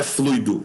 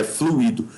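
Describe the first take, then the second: First: "fluido" in two syllables, FLUI-do, stressed on u; diphthong ui. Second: "fluido" in three syllables, flu-Í-do; hiatus u-í. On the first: Teacher corrects the division, "fluido" as FLUI-do with one diphthong. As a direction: glide u into i in "fluido". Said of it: "é fluido". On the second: Teacher gives the intended word, "fluido" as flu-Í-do with stressed i. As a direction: separate the vowels of "fluido", stressing i. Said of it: "Não é fluido". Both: Shown as a demonstration.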